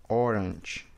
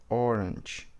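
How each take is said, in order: No difference in how they are said.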